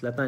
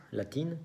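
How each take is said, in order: First: "latín" as French latin, ending in nasal eh; French pronunciation. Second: "latín" the Spanish way, clear i and N; Spanish pronunciation. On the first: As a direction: drop the N and nasalise the end of "latín". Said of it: "pues latín en francés". ("latín" en francés, con vocal nasal final) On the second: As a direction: end "latín" on a sounded -in. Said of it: "como se dice en español". ("latín" en español, con i y ene claras) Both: Shown as a demonstration.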